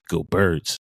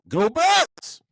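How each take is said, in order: First: It is said flatly, without much energy. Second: It is said loudly, with lots of energy.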